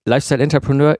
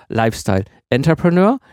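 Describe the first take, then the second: First: "Lifestyle Entrepreneur" joined as one term; stress on Lifestyle. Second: "Lifestyle", then "Entrepreneur" set apart, rising at the end; split-name stress. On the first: Host explaining the first meaning of the name, stress on "Lifestyle". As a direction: lean on "Lifestyle" without splitting off "Entrepreneur". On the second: Host explaining the second meaning of the name, separately stressed "Entrepreneur". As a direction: give "Entrepreneur" its own weight after "Lifestyle". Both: Shown as a demonstration. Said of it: "unterschiedlichen Verständnisse".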